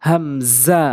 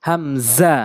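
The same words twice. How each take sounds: No difference in how they are said.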